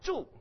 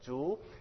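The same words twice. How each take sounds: First: The pitch falls sharply throughout. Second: The pitch rises throughout. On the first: It means to live. "If you go straight down" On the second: It means bamboo. "If I go up with my voice"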